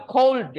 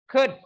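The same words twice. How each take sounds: First: "cold" said with a long "o" as in the word for chilly; "cold" pronounced with an "oh" sound, the common error; wrong pronunciation. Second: "Could" said short, like "kud", with a silent l; "Could" clipped to a quick "kud"; correct pronunciation. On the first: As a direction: show the mistake: "cold" with a full rounded "oh" vowel and a clear l. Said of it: "banyak salah pengucapan could, nggak cold ya". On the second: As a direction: model it right: "Could" with a short "u" and no l. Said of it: "banyak salah pengucapan could". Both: Shown as a demonstration.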